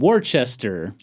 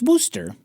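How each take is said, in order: First: The name is pronounced fully, as it is spelled. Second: The name is pronounced in a shortened, reduced form. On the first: The speaker calls it wrong. "When I first visited, I was like, ah, what a lovely town" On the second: The speaker calls it right. "actually, it's"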